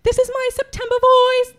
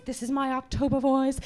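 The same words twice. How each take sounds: First: Chanted on one held note; sung, intone it evenly, singer-like; sung, sustained monotone demo; sung, September voice. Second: Deep, softer monotone; low level chant; October voice. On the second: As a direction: drop far down and intone it quietly. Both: Shown as a demonstration.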